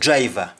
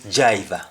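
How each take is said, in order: First: The word begins with a 'dr' sound. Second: The word begins with a 'j' sound. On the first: "when a Jamaican is talking of driver" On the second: "they say jiver"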